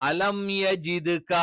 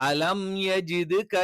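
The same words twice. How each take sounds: No difference in how they are said.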